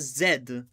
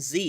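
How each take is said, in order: First: The letter is said the British way. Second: The letter is said the American way. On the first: The speaker calls it right. "You are supposed to pronounce it as Z" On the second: The speaker calls it wrong. "stop saying Z. You are not American"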